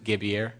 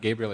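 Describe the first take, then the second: First: The name is said with a Haitian Creole pronunciation. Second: The name is said with an English pronunciation. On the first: The speaker calls it right. "it's Gabier. because they're Haitian Creole" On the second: The speaker calls it wrong. "is not Gabriel"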